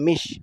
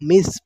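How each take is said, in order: First: The consonant after the vowel is an sh sound. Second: The consonant after the vowel is an s sound. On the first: The speaker calls it wrong. "मिश पढ़ देते हैं, मिश, शीन समझते हैं इसे" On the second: The speaker calls it right. "यहाँ पर लेकिन सा है तो एक ही, मिस पढ़ेंगे"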